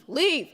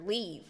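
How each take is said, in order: First: High, loud joking shout; mock shout. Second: Said in the usual way. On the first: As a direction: bark it out as a joke. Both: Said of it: "I'm just kidding".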